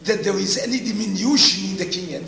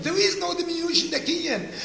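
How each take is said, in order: First: Said in the usual way. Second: "no" stressed, the whole line pitched much higher and a bit faster; emphatic restatement. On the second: Shown as a demonstration. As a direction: drive home "no diminution" with a high, quick push. Lecturer restates the point emphatically.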